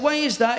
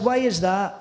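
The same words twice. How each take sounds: First: Said in the usual way. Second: Lightly mimicked Scottish comedian; cheeky, understated Scottish impression; Billy Connolly. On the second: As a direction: echo the Scottish comic's voice back at him. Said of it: "I spoke back to him in his voice".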